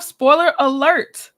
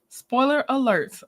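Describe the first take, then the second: First: Louder, slow, rising call-out; announced spoiler alert. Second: Said in the usual way. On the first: Shown as a demonstration. Warning the live chat before episode spoilers, loud and drawn out. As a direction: sing it out like a warning siren.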